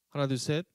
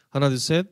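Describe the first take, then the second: First: The voice sounds thinner, quieter and less dense. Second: The voice sounds thicker, louder and more compressed. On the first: "이게 컴프레서가 빠진 소리고요" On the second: "이게 컴프레서가 적용된 소리입니다"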